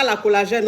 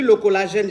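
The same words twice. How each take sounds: First: La collagène with the wrong feminine la; wrong article. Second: Le collagène with masculine le, slightly lower; correct article. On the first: Host corrects her own grammar for viewers, wrong version. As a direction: say la collagène as the mistake to avoid. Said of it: "on dit pas la collagène". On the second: Host corrects her own grammar for viewers, right version. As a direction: give le collagène as the proper form. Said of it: "on dit le collagène". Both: Shown as a demonstration.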